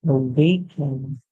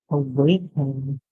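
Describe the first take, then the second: The two takes are said the same way.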